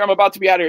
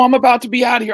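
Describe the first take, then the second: First: Said in the usual way. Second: Excited shout. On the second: Retold or imitated. Rookie telling the scout he's leaving, excited shout. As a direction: shout it out like you can't wait.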